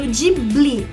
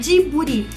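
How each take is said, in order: First: It is pronounced in an English-like way. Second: It is pronounced in a Japanese-like way, clearly articulated. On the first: "como é dito em inglês" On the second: "durante um ano que eu morei no Japão, eu sempre falava Djibouti, bem discriminado"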